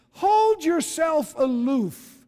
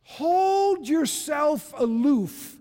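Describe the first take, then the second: No difference in how they are said.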